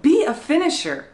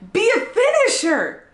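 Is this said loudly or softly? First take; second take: softly; loudly. First: The words are said at a quiet volume. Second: The words are said at a loud volume.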